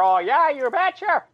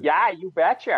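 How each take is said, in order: First: Put-on high, emphatic Midwestern accent on "Oh, yeah, you betcha"; Sarah Palin accent. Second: A light hint of a Midwestern accent on "you betcha"; Sarah Palin accent. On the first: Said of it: "the more emphatic she got". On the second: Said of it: "Sarah Palin had that".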